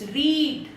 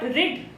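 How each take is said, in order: First: The vowel is said long. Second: The vowel is said short. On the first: The speaker calls it right. "it's read" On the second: The speaker calls it wrong. "It's not rid"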